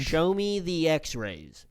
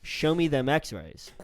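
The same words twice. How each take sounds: First: Slow stiff robot voice. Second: Slow smooth delivery. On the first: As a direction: say it like a robot, slowly. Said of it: "No, I sound like a robot". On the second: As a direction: slide it out smooth and cool. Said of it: "You're trying to be smooth with it". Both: Shown as a demonstration.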